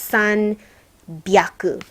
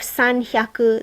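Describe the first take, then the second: First: The second part begins with a b sound. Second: The second part begins with an h sound. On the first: The speaker calls it right. "this becomes san byaku" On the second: The speaker calls it wrong. "instead of san hyaku"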